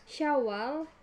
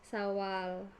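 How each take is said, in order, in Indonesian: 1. Kata ini diawali dengan bunyi 'sh'. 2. Kata ini diawali dengan bunyi 's' biasa. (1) "gugus konsonan S Y menjadi S" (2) "gugus konsonan S Y menjadi S"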